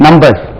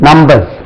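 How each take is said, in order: Both takes have the same delivery.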